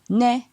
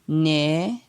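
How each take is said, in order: First: The syllable has a mid tone. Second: The syllable has a rising tone. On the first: "ton moyen" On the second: "ton montant"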